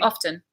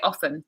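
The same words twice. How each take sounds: First: The T sound in the middle is pronounced. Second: The T sound in the middle is dropped. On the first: "You do" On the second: "some people say often. and they drop the T"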